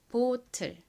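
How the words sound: It is said with a Korean accent. "한국식 발음은 보틀이죠"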